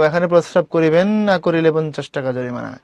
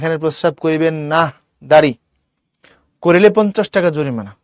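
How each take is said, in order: First: The break falls after 'করিবেন', not after 'না'. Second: There is a clear break after 'না'.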